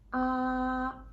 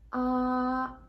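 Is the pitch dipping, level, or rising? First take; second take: level; level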